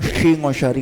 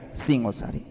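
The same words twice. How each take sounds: First: "Singosari" said with hushing sh for each s; exaggerated long sh opening "Singosari"; wrong sh sound. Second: Said in the usual way. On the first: Shown as a demonstration. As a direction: turn "Singosari" into "Shingoshari". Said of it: "Nggak ada orang". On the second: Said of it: "S biasa kita pakai".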